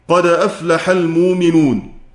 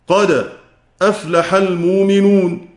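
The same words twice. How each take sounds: First: The first word runs straight on without pause. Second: A brief silent pause comes after the first word. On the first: "وله التحقيق" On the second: "السكت والتحقيق"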